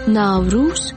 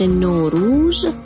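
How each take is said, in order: First: It is said in a Tajik pronunciation. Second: It is said in an Iranian pronunciation. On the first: "در تاجیکستان ناوروز" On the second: "در فارسی ایران تلفظ نوروز"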